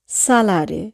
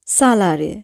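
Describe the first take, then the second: No difference in how they are said.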